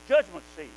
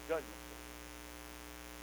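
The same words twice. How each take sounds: First: Judgment seat called out louder; proclaimed loud. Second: "judgment seat" whispered, slow and unvoiced; awed whisper. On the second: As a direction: breathe "judgment seat" in awe, very slowly. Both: Real, not acted. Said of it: "Oh, my goodness".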